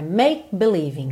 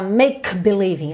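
First: The K of 'make' is cut off abruptly. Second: The K of 'make' is fully released. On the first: The speaker calls it right. "é make believing" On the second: The speaker calls it wrong. "você não fala make believing"

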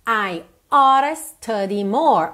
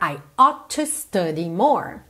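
First: 'Ought to' is reduced to one short 'ora' sound. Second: 'Ought to' is said in full as two words.

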